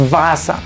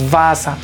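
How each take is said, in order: First: The word begins with a v sound. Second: The word begins with a v sound.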